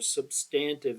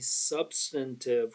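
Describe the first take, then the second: First: It is said in an Eastern regional way. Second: It is said in a general, non-regional way.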